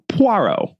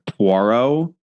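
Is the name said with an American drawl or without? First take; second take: without; American drawl. First: The name is said without an American drawl. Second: The name is said with an American drawl. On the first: "as opposed to" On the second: "with my American drawl"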